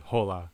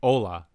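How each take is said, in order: First: The word begins with a rasping throat consonant. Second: The word begins directly with the vowel. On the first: "if it started with a J, it would be hola" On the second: "you don't pronounce the H in"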